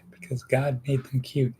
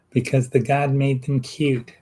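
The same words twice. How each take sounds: First: Said in the usual way. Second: Put-on lightly accented and higher, "the God made them cute"; playful mock accent on a joke line; mock foreign accent. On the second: Comic repeat of a line.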